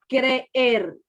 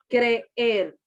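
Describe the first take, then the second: Both takes have the same delivery.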